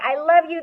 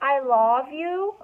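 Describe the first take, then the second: First: The vowel in love is a schwa sound. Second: The vowel in love is a full O sound. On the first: The speaker calls it right. "No, we say, I love you. There's our schwa" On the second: The speaker calls it wrong. "Do I say"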